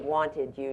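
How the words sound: The words are said fully and carefully.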